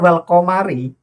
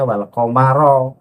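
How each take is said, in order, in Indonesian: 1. Kata ini berakhir dengan vokal i. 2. Kata ini berakhir dengan vokal a. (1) "di situ juga salah lagi"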